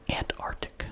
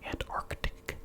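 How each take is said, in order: First: The first c sound is left out. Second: The first c sound is clearly pronounced. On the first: The speaker calls it right. "notice I did not pronounce the first C" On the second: The speaker calls it wrong. "sounds a little bit wrong"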